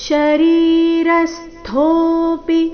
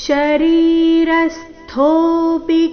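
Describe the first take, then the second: No difference in how they are said.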